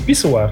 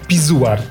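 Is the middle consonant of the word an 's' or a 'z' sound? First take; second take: s; z. First: The middle consonant is a hissing 's' sound. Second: The middle consonant is a buzzing 'z' sound. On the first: The speaker calls it right. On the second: The speaker calls it wrong.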